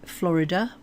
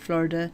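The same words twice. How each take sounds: First: It is said in a British English accent. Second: It is said in an American English accent. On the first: "we would say Florida" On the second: "the Americans would say Florida"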